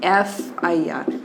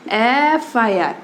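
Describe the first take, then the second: First: एफ़ आई आर whispered slowly, letter by letter. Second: एफ़ आई आर stretched very slowly, each letter apart; slow sound-out. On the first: Teacher whispers how to write it in Hindi. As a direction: breathe एफ़ आई आर out in a slow whisper. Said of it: "Hindi में लिखोगे तो कैसे". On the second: Teacher shows students the F sound, drawn out slowly. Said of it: "एफ़ का sound देखो". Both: Shown as a demonstration.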